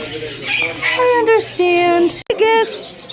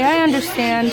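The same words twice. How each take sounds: First: Drawn out slow and soothing; slow reassuring. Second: Said in the usual way. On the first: Real, not acted. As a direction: stretch it out gently. Comforting quiet bird.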